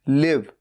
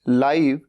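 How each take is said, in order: First: The vowel is a short 'i' sound. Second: The vowel is a long 'eye' sound. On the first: It means to reside somewhere. "रहना" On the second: It means happening right now. "भले ही इसकी spelling भी same है लेकिन बोलने का तरीका अलग है"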